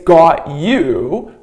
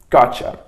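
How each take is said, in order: First: The t and y sounds stay separate. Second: The t and y merge into a ch sound. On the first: "It's got you" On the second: "it's pronounced as gotcha"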